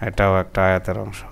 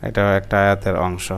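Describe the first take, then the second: The two takes are said the same way.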